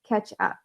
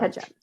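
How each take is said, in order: First: A very small pause separates the two parts. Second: It is said as one word without a pause. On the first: It is the phrasal verb. "just a hair of a pause" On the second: It names the red sauce. "you said it as one word"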